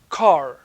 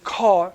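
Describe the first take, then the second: First: The final r sound is clearly pronounced. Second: The final r sound is not pronounced. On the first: This is the prestige form in New York. "In New York, you pronounce the R" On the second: It suggests a lower social status in New York. "you're considered to be like, have a lower social economic status"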